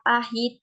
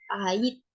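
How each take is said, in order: First: The H in the middle is pronounced. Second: The H in the middle is dropped. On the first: The speaker calls it right. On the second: The speaker calls it wrong.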